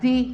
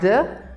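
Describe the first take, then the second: First: The word ends in a long 'ee' vowel. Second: The word ends in a short weak 'uh' vowel. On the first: It comes before a vowel sound. "or it is produced like the before vowels" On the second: It comes before a consonant sound. "It is pronounced like the before consonants"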